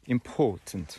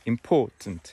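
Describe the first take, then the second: Both takes have the same delivery.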